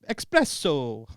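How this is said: It is said in an exaggerated Italian accent. "You just said espresso wrong in an Italian accent"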